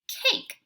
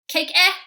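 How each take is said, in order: First: The word ends cleanly with no extra vowel. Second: The final silent e is sounded as 'eh'. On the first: The speaker calls it right. "super silent E ... tells you to change this from an A to say its name" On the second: The speaker calls it wrong. "Let's pretend like I was going to say it"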